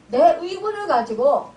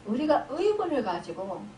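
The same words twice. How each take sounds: First: 내 pushed out loud; stress on 내. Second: Said in the usual way. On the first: Shown as a demonstration. Preacher correcting himself to blame one's own anger, 내 stressed loudly. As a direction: hit 내 hard, louder than the usual voice. Rewords 'we' as 'my'.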